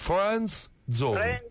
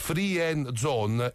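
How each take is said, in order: First: The first word is one syllable, friend. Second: The first word is split into free and end. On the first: The speaker calls it right. "Comunque si dice friend zone, ripeti" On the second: The speaker calls it wrong. "si turisce a Napoli free end zone"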